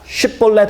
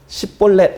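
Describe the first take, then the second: First: The word begins with a sh sound. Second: The word begins with an s sound. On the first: The speaker calls it right. "십볼렛 해봐" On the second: The speaker calls it wrong. "만약에 그가 십볼렛 이렇게 말하면 아, 올바로 발음할 수 없으니까"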